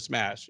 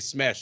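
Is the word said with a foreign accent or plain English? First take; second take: plain; accented. First: The word is said in plain English. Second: The word is said with a foreign accent. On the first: It is the ordinary English word. "instead of smash" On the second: It imitates a fighter's accented English. "people on Twitter say smash"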